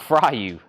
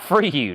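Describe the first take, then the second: First: The first syllable rhymes with 'sky'. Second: The first syllable rhymes with 'see'. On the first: The speaker calls it wrong. "not fry you" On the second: The speaker calls it right. "that's how Jake said it. That's right"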